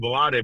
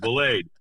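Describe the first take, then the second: First: The surname is said with Spanish-style syllables. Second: The surname is said with English-style syllables. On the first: The speaker calls it wrong. "I kept on calling Velade because, you know, again, you know, uh, I'm Destrade" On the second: The speaker calls it right. "he's not from Santiago, Cuba, so they pronounce it Blade"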